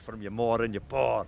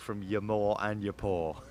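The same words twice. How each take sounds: First: It is said in a put-on Scottish accent. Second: It is said in the speaker's plain accent.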